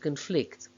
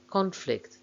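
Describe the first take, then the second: First: The stress is on the second syllable. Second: The stress is on the first syllable. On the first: It is used as a verb. "main stress of the verbs is on the second syllable" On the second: It is used as a noun. "main stress of the nouns is on the first syllable"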